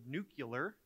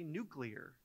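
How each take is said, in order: First: The word is said as nu-cu-lar. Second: The word is said as nu-clear. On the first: The speaker calls it wrong. "we've had a number of presidents pronounce the word nuclear" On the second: The speaker calls it right. "it's really nuclear"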